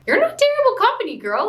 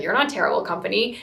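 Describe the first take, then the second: First: Much higher, louder and fast, insisting; emphatic reassurance. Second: Said in the usual way. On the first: Retold or imitated. Viewer shouting encouragement at the heroine, high and fast. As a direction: blurt it out at the screen, rushing to reassure. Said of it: "I had the same reaction ... I was like". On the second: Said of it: "And Derek's like".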